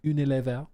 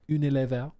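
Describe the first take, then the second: First: It is said with a slight French accent. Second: The same.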